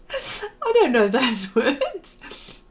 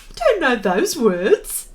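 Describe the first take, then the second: First: Slow, breaking into laughter; laughing. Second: Said in the usual way. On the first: Real, not acted. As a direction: laugh through the words. Repeats line, laughing.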